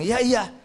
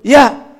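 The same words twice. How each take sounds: First: Lightly voiced guileless child, higher pitch; a simple, higher-pitched childlike yes; innocent child. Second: Loud, high burst of agreement; emphatic adult yes. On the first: Child agreeing without guile, lightly voiced innocence. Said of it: "anak-anak polos kalau dia bilang". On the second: Acted. Grown-ups answering in church, loud exaggerated agreement. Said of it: "Kalau kebanyakan saya dan Bapak Ibu".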